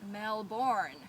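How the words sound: It is pronounced with an American accent. The speaker calls it wrong.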